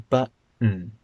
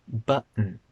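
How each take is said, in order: The two takes are said the same way.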